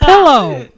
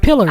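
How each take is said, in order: First: The word ends in an 'oh' sound. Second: The word ends in an 'er' sound. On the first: This is his own correction of her pronunciation. "I'm like" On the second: This imitates his wife's Kentucky pronunciation. "She says wash, winder, give me my pillar"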